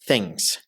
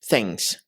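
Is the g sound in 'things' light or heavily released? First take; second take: light; light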